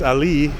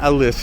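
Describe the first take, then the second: First: The name ends without an s sound. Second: The name ends with an s sound. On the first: The speaker calls it right. "that's the way they pronounce it" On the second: The speaker calls it wrong. "in my mind, I call it Alice. But it's not Alice"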